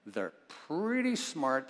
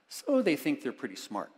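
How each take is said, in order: First: Slow, drawn-out "pretty smart" with weight on "pretty"; ironic slow repeat. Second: Said in the usual way. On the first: Shown as a demonstration. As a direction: let the irony hang on "pretty".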